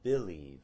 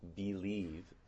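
First: The first vowel sounds like the vowel in 'kit'. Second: The first vowel sounds like the vowel in 'fleece'. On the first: "Other people might say believe as an alternative for that weak syllable" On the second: "you might say believe"

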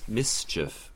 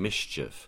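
First: The word has a plain 's' before 'ch'. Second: The word has an 'sh' sound before 'ch'. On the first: "S becoming esh" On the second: "S becoming esh"

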